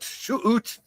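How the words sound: Out is said like 'oot', a Canadian vowel.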